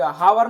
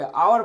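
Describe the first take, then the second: First: The word starts with an audible h sound. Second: The word starts with a vowel, no h. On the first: The speaker calls it wrong. "हावर नहीं पढ़ेंगे" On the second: The speaker calls it right. "आवर पढ़ेंगे"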